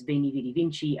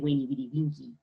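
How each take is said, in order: First: Each word begins with a V sound. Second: Each word begins with a W sound. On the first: "Caesar says" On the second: "It's really"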